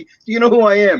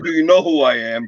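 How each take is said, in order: First: It is said in a polite, humble tone. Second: It is said in an arrogant, nasty tone. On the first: A sincere question about whether the listener knows him. The speaker calls it right. "I didn't mean that in a nasty way" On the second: A demand for recognition of one's importance. The speaker calls it wrong. "not like"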